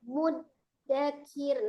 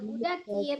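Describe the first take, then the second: First: The d sound is held with a slight break. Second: The d sound flows on without a stop. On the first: The speaker calls it right. "kalau ini agak terjeda" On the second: The speaker calls it wrong. "jangan mudakir"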